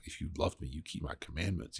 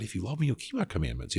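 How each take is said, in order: First: Scolding. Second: Quick, lifted encouragement; encouraging. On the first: Jesus scolding a disciple who just sinned, quiet reproach. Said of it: "scoldingly be like". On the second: Jesus encouraging his disciples, quick and uplifting. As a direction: cheer them on, quicker and brighter. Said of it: "it's an encouragement. It's not an accusation". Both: Retold or imitated.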